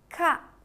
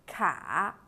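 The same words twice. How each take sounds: First: The pitch falls sharply from high to low. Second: The pitch dips low and then rises.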